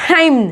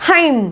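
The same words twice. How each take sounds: Both takes have the same delivery.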